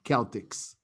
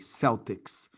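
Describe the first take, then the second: First: The word begins with a K sound. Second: The word begins with an S sound. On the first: It is the Gaelic way of saying it. "in Gaelic, you say Celtics. The C has a K sound" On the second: It names the sports team. "famous baseball team of the N B A"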